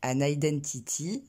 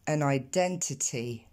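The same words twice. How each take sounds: First: "an identity" with French vowels, unaspirated t; French-accented "an identity"; prononciation française. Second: Slow "an identity" with puffed t sounds; t aspirés. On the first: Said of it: "on dit pas". (« an identity » à la française, sans souffle) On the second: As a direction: release air on each t in English "an identity". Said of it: "mais on dit". (« an identity » lent, avec t soufflés) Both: Shown as a demonstration.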